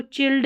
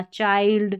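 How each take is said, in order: First: चिल्ड with a short i; wrong vowel. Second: चाइल्ड with an eye vowel; correct vowel. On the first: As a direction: say चिल्ड to rhyme with filled. (गलत उच्चारण: चिल्ड, छोटी इ के साथ) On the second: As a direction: say चाइल्ड with a wide आइ. (सही उच्चारण: चाइल्ड, आइ के साथ) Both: Shown as a demonstration. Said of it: "इसको चिल्ड नहीं पढ़ना".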